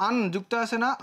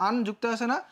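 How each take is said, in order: Both takes have the same delivery.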